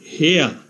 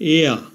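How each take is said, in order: First: The word begins with an h sound. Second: The word begins directly with a vowel. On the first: The speaker calls it wrong. "প্রথমে h ধরে উচ্চারণ করলে হয়" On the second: The speaker calls it right. "h এর উচ্চারণ না হয়ে vowel ই থেকে উচ্চারণ হয়েছে"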